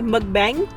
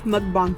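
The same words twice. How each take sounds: First: The word is pronounced in an English-style way. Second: The word is pronounced in a Korean-style way. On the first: The speaker calls it wrong. "A lot of people say it wrong" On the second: The speaker calls it right. "but it's mukbang. It's a Korean word"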